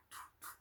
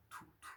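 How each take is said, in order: Both takes have the same delivery.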